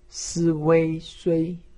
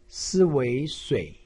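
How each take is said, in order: First: The pitch stays high and level. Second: The pitch dips low, then rises. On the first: "一声" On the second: "三声"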